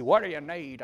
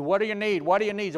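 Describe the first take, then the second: First: Tennessee country drawl. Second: Said in the usual way. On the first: Retold or imitated. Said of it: "Old country boy from Tennessee". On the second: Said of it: "A guy called me".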